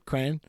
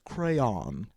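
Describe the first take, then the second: First: The first syllable sounds like 'cran'. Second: The first syllable sounds like 'cray'.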